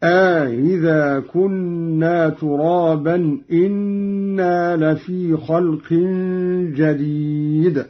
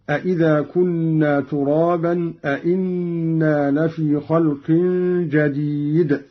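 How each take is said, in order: First: أإذا drawn to aa with softened second hamza; slow recitation, long a in أإذا, single hamza in إنا; Qalun's eased hamza. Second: Both hamzas clear in أإذا and in أإنا; double question reading. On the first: Reciter showing Qalun's question then statement, lengthened and eased أإذا. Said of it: "مع إدخال ألف في الأول بين الهمزتين". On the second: Reciter giving the verse before the variant, both questions fully sounded. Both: Shown as a demonstration.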